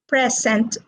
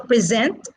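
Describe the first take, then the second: First: The stress is on the first syllable. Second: The stress is on the second syllable. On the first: It is a gift. "present is a noun ... as a gift is stressed on the first syllable" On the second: It is an action of giving or showing. "present is a verb, ... stressed on the second syllable"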